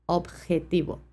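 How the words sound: The j is a strong, harsh throat sound. This is how it is said in Spain. "une façon un peu plus forte de prononcer la J"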